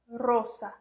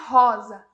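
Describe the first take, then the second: First: The word is said with Spanish vowels. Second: The word is said with Portuguese vowels. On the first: The speaker calls it right. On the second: The speaker calls it wrong.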